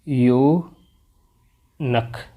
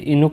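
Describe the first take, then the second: First: The word begins with a 'yoo' sound. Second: The word begins with an 'ee' sound. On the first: The speaker calls it right. "यूनक होता तो कैसे बोला जाता है?" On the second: The speaker calls it wrong. "इनुक नहीं होता"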